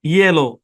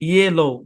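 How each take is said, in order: The two takes are said the same way.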